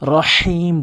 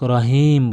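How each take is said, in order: First: The 'h' is a deep sound from mid-throat. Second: The 'h' is a plain, light breath. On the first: The speaker calls it right. "রহিম বলতে হবে" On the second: The speaker calls it wrong. "অধিকাংশ লোক রহিম বলে"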